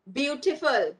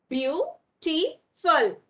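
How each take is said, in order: First: Said in the usual way. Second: "Beautiful" very slowly split, Beau - ti - ful; broken into syllables. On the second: Shown as a demonstration. Teacher showing where we give a break, split syllables. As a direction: pause after each syllable of "Beautiful". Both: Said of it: "we give a break".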